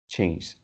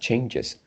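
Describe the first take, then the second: First: The word is said as one syllable. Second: The word is said as two separate syllables. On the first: The speaker calls it wrong. "I heard that you say something like change" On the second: The speaker calls it right. "we need to separate the pronunciation into two"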